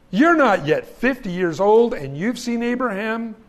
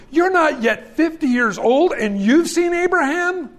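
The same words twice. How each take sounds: First: Said in the usual way. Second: Much higher, scoffing disbelief; rising mock astonishment, fifty years old; incredulous.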